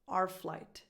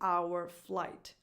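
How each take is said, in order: First: 'Our' is reduced to just an R sound. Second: 'Our' is said with its full vowel sound. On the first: The speaker calls it right. "becomes just an R sound" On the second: The speaker calls it wrong. "I don't say our flight"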